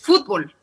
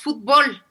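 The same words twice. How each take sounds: First: The stress is on the first syllable. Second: The stress is on the last syllable.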